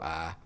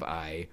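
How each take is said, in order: First: The vowel is a flat, single 'ah' sound. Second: The vowel glides as a full 'eye' sound. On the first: "when I get lazy, my eyes go ah" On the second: "instead of I"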